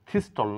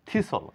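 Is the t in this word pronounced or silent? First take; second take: pronounced; silent. First: The t sound is pronounced in the word. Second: The t sound is left out of the word. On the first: The speaker calls it wrong. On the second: The speaker calls it right.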